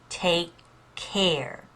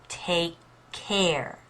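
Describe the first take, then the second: The two takes are said the same way.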